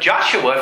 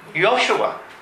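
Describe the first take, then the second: First: The name begins with a J sound. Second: The name begins with a Y sound. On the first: "instead of Joshua" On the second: "you would say Yoshua"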